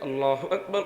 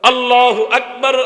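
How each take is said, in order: First: The phrase is said softly and quietly. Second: The phrase is said loudly and strongly. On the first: "প্রথমবার আস্তে বলে" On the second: "দ্বিতীয়বার জোরে বলে।"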